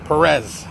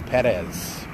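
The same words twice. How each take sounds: First: The name is said in a hard, harsh way. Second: The name is said in a softer, gentler way. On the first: The speaker calls it wrong. "when I was younger, I used to go Perez" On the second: The speaker calls it right. "A little softer, not so hard"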